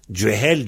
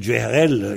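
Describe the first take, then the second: First: "Djehel" in two syllables, with no r; form without r. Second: "Djeherel" with an extra r syllable at the end; form with r. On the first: Teacher comparing understood variants, "Djehel" without the r. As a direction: leave out the r in "Djehel". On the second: Teacher comparing understood variants, "Djeherel" with the r. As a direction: add the r before the final -el of "Djeherel". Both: Shown as a demonstration. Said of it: "Il y a qu'un R de différence".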